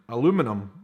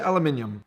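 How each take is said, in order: First: It is said the American way, with four syllables. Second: It is said the British way, with five syllables. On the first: "You guys, I believe, say" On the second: "We say aluminium"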